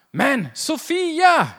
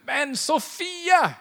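First: Slow, loud, much higher cry of the wife's name; drawn-out exasperated shout; calling out in pain. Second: Slow, much higher, louder call of her name; drawn-out annoyed cry; exasperated call. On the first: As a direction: yell her name as if you just drilled your thumb. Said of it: "då kan ju jag i och för sig ropa". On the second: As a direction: call out the name in mock frustration. Frustrated by an email, calls name. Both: Retold or imitated.

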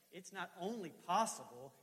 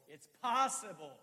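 First: Said in the usual way. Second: POSSIBLE stretched slow, high and loud; stress on POSSIBLE. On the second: Shown as a demonstration. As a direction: punch out "possible" with conviction. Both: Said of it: "wrong emphasis".

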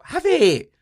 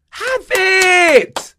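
First: High, loud "Have it" shout. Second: "Have it" screamed very high and very loud; full yell. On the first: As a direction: yell it out, handing the spot away. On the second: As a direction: scream it, totally fed up. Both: Real, not acted. Giving away the Champions League spot.

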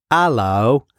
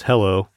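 First: "hello" as "allo", British accent, no H. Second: Said in the usual way. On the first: Shown as a demonstration. Student recalls professor's phonetic line, British accent. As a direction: drop the H and open with "ah", British. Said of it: "in a, in a British accent". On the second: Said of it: "which is hello".

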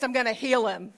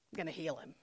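First: Said in the usual way. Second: Much softer, lower restatement; hushed repeat. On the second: Acted. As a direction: let it sink in, low and very soft. Same promise repeated softly after pause.

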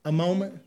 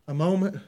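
The two takes are said the same way.

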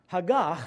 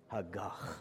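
First: Haggah ending cleanly on ah, without the kh; plain ending. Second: Hagach with a harsh throaty kh at the end; guttural gagging sound. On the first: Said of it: "you have to have a little guttural sound at the end". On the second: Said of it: "sound like you're gagging". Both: Shown as a demonstration.

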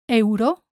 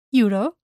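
First: Euro as EH-oo-ro; Spanish pronunciation. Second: Euro as YOO-ro; English pronunciation. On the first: Teacher shows learners the Spanish word, EH-oo-ro for Euro. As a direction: sound E then U in Euro, tapped r. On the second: Teacher contrasts with Spanish, English YOO-ro for euro. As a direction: open euro with an English "you". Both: Shown as a demonstration. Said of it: "same in English and in Spanish".

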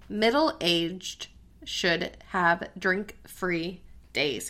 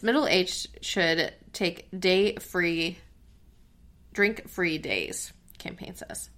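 First: Slow, careful headline reading; very slowly. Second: Said in the usual way. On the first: Real, not acted. Host rereads a tongue-twisting headline to co-host, very slowly. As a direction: space out each word to avoid stumbling. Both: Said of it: "I have to say it very slowly".

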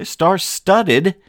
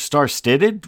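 First: Said in the usual way. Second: Puzzled repeat. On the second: Real, not acted. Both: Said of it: "What, what did I just say?".

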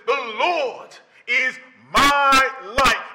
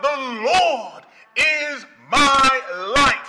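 First: Each word of "The Lord is my light" drawn out slowly; stately slow declaration of "The Lord is my light"; slow proclaiming. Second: Slow, ringing "The Lord is my light" with laughter; exultant slow call of "The Lord is my light"; joyful proclaiming. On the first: He turns around and he says. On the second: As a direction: shout "The Lord is my light" in glad triumph. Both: Acted.

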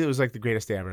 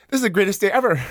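First: Said in the usual way. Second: High and loud, gushing with delight; overjoyed. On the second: Retold or imitated. Kid vouched for by the toughest guy, a high, loud thrilled gush. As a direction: sell it like the best moment of your life. Thrilled retelling of bully thrown.

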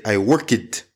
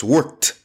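First: "work it" as WORK-id, two syllables; Brazilian learners' mispronunciation. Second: WORKED as one syllable ending in T; correct -ed ending. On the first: Retold or imitated. Teacher imitating Brazilian students, extra-syllable ending. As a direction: sound out the ending of "work it" separately. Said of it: "Brazilians say". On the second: Shown as a demonstration. Teacher correcting Brazilian students, one-syllable worked. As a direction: say "worked" as WERKT. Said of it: "almost sound like it's a T".

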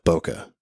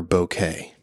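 First: Bokeh said as BOH-kuh; BOH-kuh pronunciation. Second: Bokeh said as boh-KAY; boh-KAY pronunciation. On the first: Photographer offering one way to say it, bokeh as BOH-kuh. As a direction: end bokeh on a short "kuh". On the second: Photographer offering the other way to say it, bokeh as boh-KAY. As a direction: end bokeh on a long "kay". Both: Shown as a demonstration. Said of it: "however you wanna say it".

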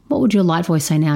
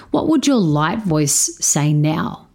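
First: Fast, brisk repeat of the question; quick repeat. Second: Put-on slow, deliberate question to the girl; slow coaching question. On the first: Repeating the question to his stepdaughter, fast and brisk. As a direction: rattle it off quickly. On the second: Coaching his stepdaughter, asks slowly and deliberately. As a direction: let each word land slowly. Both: Shown as a demonstration. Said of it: "coaching question asked twice".

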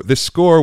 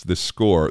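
First: "this score" thrown up high and loud with a rising lift; emphatic. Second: Said in the usual way. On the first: Real, not acted. Singer stressing the score he must memorize, emphatic and high. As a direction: pop the second "score" up high, louder, rising. Repeats phrase, second one lifted.

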